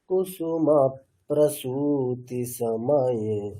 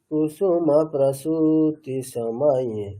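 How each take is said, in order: First: The p is doubled, ending the previous syllable. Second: The p is said once, only before 'pra'. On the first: The rhythm flows and sounds pleasant. The speaker calls it right. "এটা উচ্চারণ করাটাও খুব সুবিধা এবং আমাদের শুনতেও ভালো লাগছে" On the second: The rhythm breaks and it sounds less pleasant. The speaker calls it wrong. "রিদিমটাও কেটে যায় এবং অতটা শ্রুতি মাধুর্য থাকে না"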